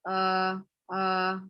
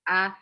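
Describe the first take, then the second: First: The vowel is mumbled with the mouth barely open. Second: The vowel is said with the mouth wide open. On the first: The speaker calls it wrong. "Kalau kita nyebutnya nggak buka, jadinya emang gremeng" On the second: The speaker calls it right. "jadi mulutnya harus terbuka"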